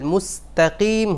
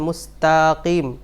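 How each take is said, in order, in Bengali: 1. ta অক্ষরটি ছোট রাখা হয়। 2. ta অক্ষরটি লম্বা করে টানা হয়। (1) "হবে" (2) "তাটাকে লম্বা করে ফেলছেন"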